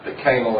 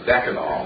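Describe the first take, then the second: First: The stress is on a later syllable. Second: The stress is on the first syllable. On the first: It relates to a dean. "if you put the emphasis on anal, then you have the canal" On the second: It names a chemical compound. "We pronounce it as decanal, and decanal is a 10-carbon aldehyde"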